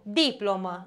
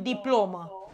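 First: "Diplomă" stressed on the first syllable, DI-plo-mă. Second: "diplomă" stressed in the middle, di-PLO-mă. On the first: Teacher confirming a student's answer, "Diplomă" stressed on DI. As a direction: put the weight on DI in "Diplomă". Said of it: "Pe I". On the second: Teacher showing what not to say, "diplomă" stressed on PLO. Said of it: "Nu pot să spun diplomă". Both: Shown as a demonstration.

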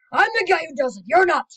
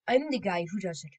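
First: Loud, high mock shouting; mock argument. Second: Said in the usual way. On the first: Two voices bickering over who does it, loud. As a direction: shout the claim in a hammed-up bicker.

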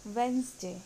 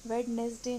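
First: वेंसडे in two syllables, first D silent; correct pronunciation. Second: वेडनेसडे with every syllable, "wed-nes-day"; wrong pronunciation. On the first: Teacher demonstrating the correct word, वेंसडे as "wens-day". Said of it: "इसका सही pronunciation है वेंसडे". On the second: Teacher rejecting a common mistake, वेडनेसडे as "wed-nes-day". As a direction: sound the D in वेडनेसडे. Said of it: "सही pronunciation वेडनेसडे नहीं है". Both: Shown as a demonstration.

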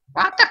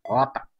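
First: High, loud rising yell of "Vota"; pleading shout, impatient; shouted urging. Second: Said in the usual way. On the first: Real, not acted. Urging others to vote.

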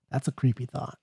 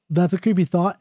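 First: Much softer, spooky "creepy thought"; hushed eerie aside. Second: Said in the usual way. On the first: Acted. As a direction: drop to a hush. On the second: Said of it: "By the way, that's a creepy thought".

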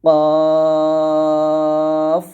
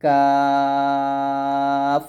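First: "কফ" thick and rounded, held very long, starting loud; thick qaf. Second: "কাফ" thin with an open 'a', held very long; thin kaf. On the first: Teacher showing the heavy letter of the pair, thick qaf. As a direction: launch a heavy "কফ" loudly and sustain it. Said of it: "মোটা হবে". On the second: Teacher showing the light letter of the pair, thin kaf. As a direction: sustain a light, thin "কাফ" on one steady note. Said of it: "এরকমভাবে আপনারা এই দুটো হরফ উচ্চারণ করবেন". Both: Shown as a demonstration.

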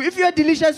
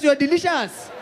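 First: You hit hard to make the point; stress on you. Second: Said in the usual way. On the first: Acted. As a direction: lean on the word you in If you are delicious.

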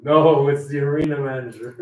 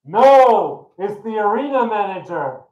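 First: Punchline replayed through a laugh; laughing punchline reprise. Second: High, loud announcement from above; booming voice. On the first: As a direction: repeat the voice's answer, cracking up. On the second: Acted. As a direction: boom out the punchline. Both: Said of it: "And the voice says".

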